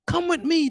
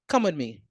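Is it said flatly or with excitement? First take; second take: excitement; flatly. First: It is said with excitement and emotion. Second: It is said flatly, without emotion.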